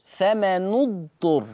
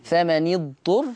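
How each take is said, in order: First: فمن اضطر slowly as "famanud-turr"; Warsh damma on nun. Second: فمن اضطر slowly as "famanid-turr"; Hafs kasra on nun. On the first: Teacher contrasting Warsh with Hafs, فمن اضطر read with "nu". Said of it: "يقرأ ورش فمن اضطر". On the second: Teacher contrasting Hafs with Warsh, فمن اضطر read with "ni". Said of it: "لحفص هكذا". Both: Shown as a demonstration.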